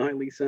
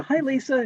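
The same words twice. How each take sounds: First: Said in the usual way. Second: High, sing-song "Hi, Lisa" with the pitch way up; a bright mock-sweet hello; sing-song greeting. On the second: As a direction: imitate mom's chirpy "Hi, Lisa" to a little girl. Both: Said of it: "She's going like that".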